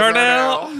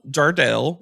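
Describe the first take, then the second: First: It is said in a Southern accent. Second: It is said in a neutral accent.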